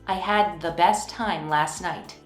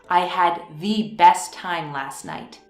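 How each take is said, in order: First: 'The' has a short vowel, like 'thuh'. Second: 'The' has a long, emphatic vowel, like 'thee'. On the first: It was simply a good time. "Normally, we would say the before best" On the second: It was a really good time. "I am using the emphatic the to emphasize"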